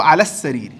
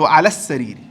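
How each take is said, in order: First: The L is silent and the S is doubled. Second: The same.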